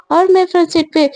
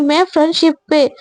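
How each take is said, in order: First: "मैं" drawn into a hopeful question; questioning claim. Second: "मैं" asserted, ending on a fall; firm counter-claim. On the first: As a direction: ask it, leaning on "मैं". Rivals claim the front seat. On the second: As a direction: claim it firmly, leaning on "मैं". Rival contradicts the seat claim. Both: Acted.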